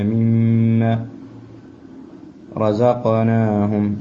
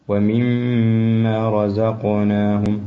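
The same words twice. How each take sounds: First: مما drawn out, then رزقناهم with a bouncing qaf; echoing qaf. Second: ومما with the doubled mim held nasal and very slow; nasal ghunna. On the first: Teacher stressing the echoing qaf to the student. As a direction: let the qaf in رزقناهم echo. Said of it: "القاف مقلقل". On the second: Teacher showing the nasal ghunna to the student. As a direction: hum through the mim of ومما. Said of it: "الميم المشددة فيها غنة". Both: Shown as a demonstration.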